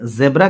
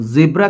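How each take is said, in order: First: ज़ेब्रा with short e, "ZEB-ra"; variant pronunciation. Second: ज़ेब्रा with an i-like first vowel, "ZIB-ra" or "ZEE-bra"; variant pronunciation. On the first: Teacher gives one of two accepted forms, ज़ेब्रा as "zeb-ra". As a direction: say ज़ेब्रा as "zeb-ra", open e in the first syllable. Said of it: "कुछ लोग इसे ज़ेब्रा कहते हैं". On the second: Teacher gives the other accepted form, ज़ेब्रा as "zee-bra". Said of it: "कुछ लोग ज़ेब्रा कहते हैं". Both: Shown as a demonstration.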